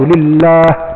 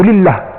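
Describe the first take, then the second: First: The vowel before the final h is held long. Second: The vowel before the final h is cut short. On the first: "dua harakat lah" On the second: "kalau baca satu harakat je"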